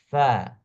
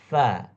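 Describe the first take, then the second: Both takes have the same delivery.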